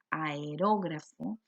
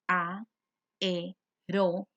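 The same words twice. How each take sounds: First: Said in the usual way. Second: "aerógrafo" split a-e-ró-gra-fo with clear pauses; syllable by syllable. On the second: Shown as a demonstration. Teacher showing how the word divides, "aerógrafo" broken into syllables. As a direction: say "aerógrafo" slowly, one syllable at a time. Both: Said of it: "se pueden dividir y quedaría".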